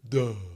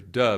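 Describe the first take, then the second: First: It is said in a low, dopey, yawning voice. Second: It is said in an ordinary speaking voice. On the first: "but duh" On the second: "not just regular duh"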